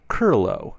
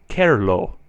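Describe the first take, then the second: First: The vowel before r sounds like 'er' in her. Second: The vowel before r sounds like 'e' in error. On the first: The speaker calls it wrong. "sometimes sound like they are spelled" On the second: The speaker calls it right. "I try to pronounce it very closely to the E in error"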